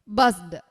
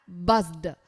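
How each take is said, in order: Both takes have the same delivery.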